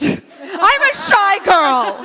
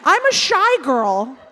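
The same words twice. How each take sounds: First: High, drawn-out comic holler; mock shouting. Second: Slow, emphatic declaration; shouted declaration. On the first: Shown as a demonstration. Teasing about shouting shyness into a microphone, mock shout. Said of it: "I think it might be because you shouted it". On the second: Real, not acted. Guest insisting she is shy, slow and emphatic. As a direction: announce it slowly to the room. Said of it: "because you shouted it".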